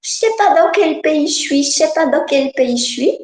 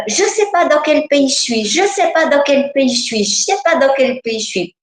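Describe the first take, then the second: First: Put-on higher childlike voice, lost; a small girl who doesn't know where she is; little girl voice. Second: Put-on higher, childlike and lost, repeating; a frightened child's voice, a little higher; little girl voice. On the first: Little girl answering the husband, lost, childlike voice. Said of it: "c'est la petite fille qui parle". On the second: Inner child to adult, lost and scared, childlike voice. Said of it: "cet enfant, il disait".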